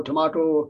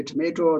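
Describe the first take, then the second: First: "tomato" with the middle vowel as ah, to-mah-to; British tomato. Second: "tomato" with the middle vowel as ay, to-may-to; American tomato. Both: Shown as a demonstration. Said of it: "You can say tomato".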